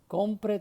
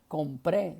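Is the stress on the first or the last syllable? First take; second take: first; last. First: The stress is on the first syllable. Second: The stress is on the last syllable. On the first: The speaker calls it right. "sino compre" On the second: The speaker calls it wrong. "le había sobrado el acento en la E"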